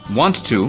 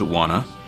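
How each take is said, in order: First: Both words are said fully and separately. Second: The words are shortened and joined into one.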